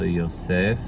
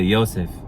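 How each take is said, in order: First: The stress is on the last syllable. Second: The stress is on the first syllable. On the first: This is the biblical Hebrew pronunciation. "in biblical Hebrew you still emphasize the last part of the name" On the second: This is the modern Hebrew pronunciation. "in modern Hebrew they'd say Yosef, just like Joseph"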